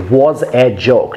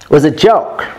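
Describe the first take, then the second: First: The vowels in 'was a' are full. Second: The vowels in 'was a' are reduced schwas. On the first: The speaker calls it wrong. "That's wrong to say was a joke" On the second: The speaker calls it right. "should be schwa"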